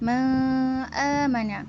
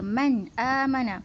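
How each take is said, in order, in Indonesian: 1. Bunyi n dihilangkan dan tidak terdengar. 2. Bunyi n diucapkan dengan jelas dan terang. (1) "Jangan baca ma amana" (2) "terang dan nyata"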